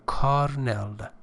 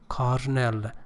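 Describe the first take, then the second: Both takes have the same delivery.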